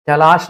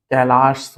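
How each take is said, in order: First: कैलाश ending in a sh sound; wrong final sh. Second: कैलाश lower, ending in plain s; correct final s. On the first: Teacher rejecting a misspelling, कैलाश with final sh. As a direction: say कैलाश with sh at the end. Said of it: "नहीं होता". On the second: Teacher correcting a misspelling, कैलाश with final s. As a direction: say कैलाश as kailaas. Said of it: "होता है". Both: Shown as a demonstration.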